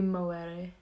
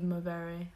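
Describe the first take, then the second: First: The middle consonant is a w sound. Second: The middle consonant is a v sound. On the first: "if we were going to go for the Latin pronunciation, it would be" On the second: "instead of movere, like with a V"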